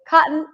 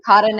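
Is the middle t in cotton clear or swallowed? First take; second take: clear; swallowed. First: The middle t sound is clearly pronounced. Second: The middle t sound is swallowed. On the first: The speaker calls it right. "I say cotton and buttons" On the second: The speaker calls it wrong. "I don't say buttons or cotton anymore"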